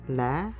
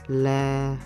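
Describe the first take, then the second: First: The pitch is high and rises. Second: The pitch stays level and flat. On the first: "giving a high rising pitch" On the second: "it's just a flat tone. You neither raise nor lower down your voice"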